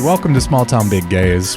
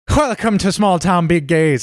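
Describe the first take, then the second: First: It is said in the speaker's plain accent. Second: It is said in an attempted Irish accent.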